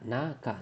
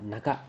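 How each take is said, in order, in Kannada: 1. ಮೊದಲ ಸ್ವರವನ್ನು ದೀರ್ಘವಾಗಿ ಎಳೆಯಲಾಗಿದೆ. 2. ಮೊದಲ ಸ್ವರವನ್ನು ಹ್ರಸ್ವವಾಗಿ ಇಡಲಾಗಿದೆ.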